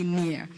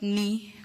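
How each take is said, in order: First: The name sounds like the word 'near'. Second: The name sounds like the word 'knee'. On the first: The speaker calls it right. "but it's actually near" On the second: The speaker calls it wrong. "It's not ni, because that's what I had said initially"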